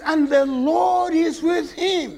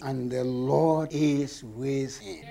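First: Higher, slow and choked with feeling; emotional preacher near tears on the verse; tearful verse. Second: Softer, lower and slow, almost reverent; a softly read verse, held low; hushed reverent reading. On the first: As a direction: let the voice break on the Lord. Same verse read again. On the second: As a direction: let the verse settle quietly. Scripture read as key line. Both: Shown as a demonstration.

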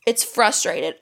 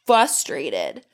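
First: Frustrated with a clear r after the f; correct pronunciation. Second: Frustrated said as fustrated, dropping the first r; her usual mispronunciation. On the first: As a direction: say frustrated properly, fr at the start. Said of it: "It's supposed to be frustrated". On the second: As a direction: say frustrated without the r after f, like fustrated. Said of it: "I only ever say". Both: Shown as a demonstration.

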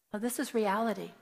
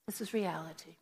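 First: Said in the usual way. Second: Softer, settling the point; softer repeat of this is reality; soft sober repeat. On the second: Real, not acted. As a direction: let it sink in quietly. Repeated for emphasis.

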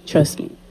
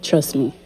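First: Breathy whisper, very soft. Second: Said in the usual way. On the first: Shown as a demonstration. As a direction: whisper it close to the mic. Repeated, second take whispered.

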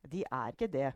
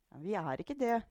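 First: Said in the usual way. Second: Higher-pitched mild protest; objecting. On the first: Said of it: "sa Storm". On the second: A narrator's reading. Daughter objecting to grandmother, mildly protesting. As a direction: push back in a raised pitch. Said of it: "innvendte Juliette".

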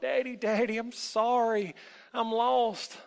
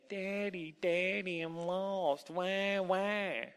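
First: High, loud, plaintive call; crying out. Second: High mock-crying singsong. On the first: Lost boy calls out to his father, tearfully. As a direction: wail for daddy like a lost child. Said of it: "cried. Ever so often, he would call out". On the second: Hidden elf imitates the boy's cries, mocking. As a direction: mimic a whining child to taunt him. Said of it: "heard a mocking voice say". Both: A narrator's reading.

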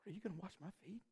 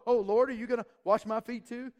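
First: Much softer, hushed and wondering; humble question. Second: Higher, louder, fussing like a customer; hammed-up picky guest asking for service; mock fussy request. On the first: Retold or imitated. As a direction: ask it in quiet awe. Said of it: "He's saying". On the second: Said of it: "He's not like that".

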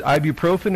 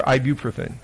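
First: A full "oh" in the third syllable of ibuprofen; ibuprofen, sounding the "pro" fully; ibuprofen with long O. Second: Ibuprofen, with a weak, quick "pruh"; ibuprofen with reduced O. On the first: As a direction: say ibuprofen as eye-byoo-PRO-fen. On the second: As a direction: say ibuprofen as eye-BYOO-pruh-fen. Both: Shown as a demonstration. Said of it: "is it ibuprofen or ibuprofen".

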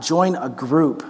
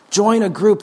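First: Slow, deliberate Join a group with weight on Join; slow earnest plea; slow emphatic. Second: Rising urgent repeat; louder higher repeat. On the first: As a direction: lay down Join a group word by word, slowly. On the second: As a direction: Join a group repeated higher and louder, stress on group. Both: Shown as a demonstration.

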